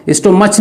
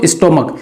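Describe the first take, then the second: First: "स्टोमच" ending in a ch sound; wrong pronunciation. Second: "स्टोमक" closed on a hard k; correct pronunciation. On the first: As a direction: misread "स्टोमच" with ch as in church. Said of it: "स्टोमच नहीं पढ़ेंगे इसको". ("स्टोमच" के अंत में च की आवाज़) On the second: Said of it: "क्या पढ़ेंगे इसको". ("स्टोमक" के अंत में क की आवाज़) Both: Shown as a demonstration.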